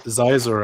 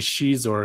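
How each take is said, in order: First: The name begins with a z sound. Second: The name begins with an sh sound. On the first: The speaker calls it right. "just like I say Zizor" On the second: The speaker calls it wrong. "I don't say Shizor because that's dumb"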